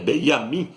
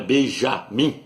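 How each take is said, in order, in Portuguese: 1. A consoante do meio é um som de Y. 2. A consoante do meio é um som de J. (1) "porque no hebraico não tem a letra J" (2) "não é Benjamin"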